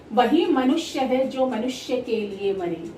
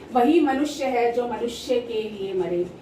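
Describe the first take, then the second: The two takes are said the same way.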